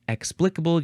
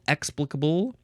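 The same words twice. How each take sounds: First: The stress is on the second syllable. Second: The stress is on the first syllable.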